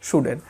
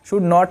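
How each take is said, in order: First: It is said as one contracted word. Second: It is said as two separate full words.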